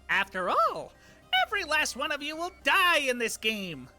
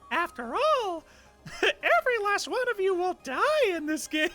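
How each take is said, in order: First: It is said in his normal reading voice. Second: It is said in a Mickey Mouse voice.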